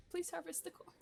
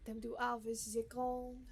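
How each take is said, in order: First: Said in the usual way. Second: Mock French accent on harvest the corn; bad French accent. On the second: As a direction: put on a hammed-up French accent. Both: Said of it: "Is my French accent bad?".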